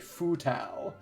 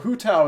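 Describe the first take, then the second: First: The name begins with an f sound. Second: The name begins with an h sound. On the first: "Fu Tao in the Japanese dub" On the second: "they use the fu sound to stand in for a hu or an h sound"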